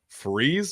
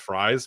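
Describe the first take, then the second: First: The name rhymes with the word freeze. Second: The name sounds like the food fries. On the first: "I've heard both" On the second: "you got to go with the food pronunciation"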